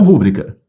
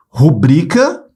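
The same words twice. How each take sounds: First: Rúbrica hit on RÚ; wrong first-syllable stress. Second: Rubrica with a long BRI; stress on second syllable. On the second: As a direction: stretch the middle of Rubrica. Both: Shown as a demonstration. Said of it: "e não rúbrica".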